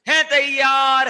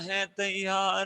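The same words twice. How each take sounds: First: It is said loudly, like an energetic slogan. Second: It is said flatly, with little energy. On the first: The speaker calls it right. "ऐसे energy के साथ ऐसे हाथ करके ऐसे नारा लगाते ना" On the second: The speaker calls it wrong. "ऐसे नहीं बोलना"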